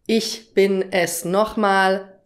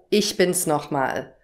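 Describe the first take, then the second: First: The word 'es' is said as a full syllable. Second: The word 'es' is shortened to an s sound. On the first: The speaker calls it wrong. "Nicht ich bin es nochmal" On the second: The speaker calls it right. "sondern ich bin's nochmal"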